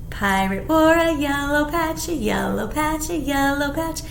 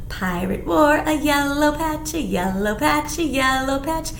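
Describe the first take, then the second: No difference in how they are said.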